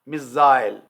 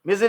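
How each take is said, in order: First: It is said in a British accent. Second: It is said in an American accent.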